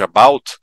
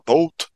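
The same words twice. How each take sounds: First: It is said with an American accent. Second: It is said with a Canadian accent.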